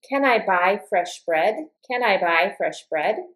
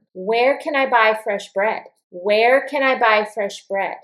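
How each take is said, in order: First: "Can I buy fresh bread?" climbing at the end; yes-or-no question, lift the pitch on BREAD; rising question intonation. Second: Information question, let the pitch drop on BREAD; falling question intonation. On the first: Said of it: "my intonation for ... is going to go up like this". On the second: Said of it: "my intonation will go down". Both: Shown as a demonstration.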